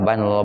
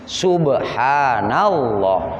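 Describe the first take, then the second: First: The word is slurred and indistinct. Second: The word is articulated clearly and fully. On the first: The speaker calls it wrong. "enggak jelas itu" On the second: The speaker calls it right. "Nah, gitu ya"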